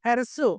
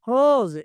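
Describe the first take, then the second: First: The word ends with an s sound. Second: The word ends with a z sound. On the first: The speaker calls it wrong. "హెర్సు కాదండి" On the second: The speaker calls it right.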